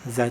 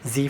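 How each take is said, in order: First: The letter is said as zed. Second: The letter is said as zee.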